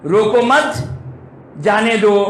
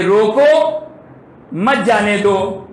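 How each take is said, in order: First: रोको मत together, rising on मत, pause, जाने दो falling; pause after मत. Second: रोको raised and held apart, long pause, then मत जाने दो; pause after रोको. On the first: Showing listeners the opposite meaning, रोको मत joined, then pause before जाने दो. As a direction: break the phrase right after मत. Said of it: "बिल्कुल अपोजिट माना है". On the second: Showing listeners how speech reveals the meaning, pause after रोको before मत जाने दो. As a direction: break the phrase right after रोको. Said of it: "मेरे बोलने से तो पता चल जाएगा". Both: Shown as a demonstration.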